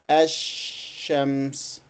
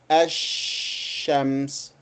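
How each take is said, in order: First: The l is dropped and the sh is doubled. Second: The l is dropped and the sh is doubled.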